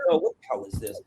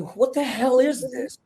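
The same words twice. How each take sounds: First: Said in the usual way. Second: High, slow, drawn-out disbelief; incredulous reaction. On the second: Retold or imitated. Voicing a viewer watching the manic film, incredulous. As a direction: imitate a baffled viewer, pitched well up. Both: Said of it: "And it's not like".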